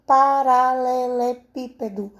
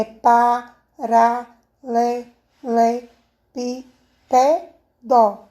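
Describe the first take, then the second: First: Said in the usual way. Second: PARALELEPÍPEDO split pa-ra-le-le-pí-pe-do, very slowly; syllable by syllable. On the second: Shown as a demonstration. Teacher showing pupils how to separate the word, PARALELEPÍPEDO syllable by syllable. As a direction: break PARALELEPÍPEDO into seven spaced syllables, pausing after each. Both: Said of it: "Como é a separação de paralelepípedo?".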